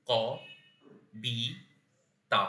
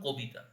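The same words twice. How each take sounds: First: ক, বি, তা with long pauses between; syllable by syllable. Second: Said in the usual way. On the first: Shown as a demonstration. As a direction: break it into three isolated syllables, ক, বি, তা. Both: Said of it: "একে যদি আমি ভাঙি".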